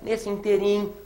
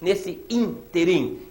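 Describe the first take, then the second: First: The stress is not on the first syllable. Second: The stress is on the first syllable. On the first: The speaker calls it wrong. "não pode, hein?" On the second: The speaker calls it right. "interim também é uma palavra proparoxítona"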